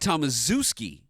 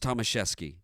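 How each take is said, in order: First: The name is said as its spelling looks. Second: The name is said with Polish pronunciation. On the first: "It looks like Tomaszewski" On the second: "the true Polish pronunciation was Tomaszewski"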